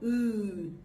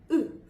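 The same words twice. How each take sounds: First: The vowel is held long. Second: The vowel is cut short. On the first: "it's the long ooh" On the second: "short ooh sound"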